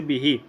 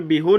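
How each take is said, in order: First: बिही ending in a long "ee"; kasra on pronoun. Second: बिहू ending in a long "oo"; wrong vowel. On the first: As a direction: say बिही with -hee, the kasra vowel. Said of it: "ज़मीर को भी कसरा देंगे". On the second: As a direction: say बिहू with -hoo in place of -hee. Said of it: "यहाँ पे बिहू नहीं पढ़ेंगे". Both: Shown as a demonstration.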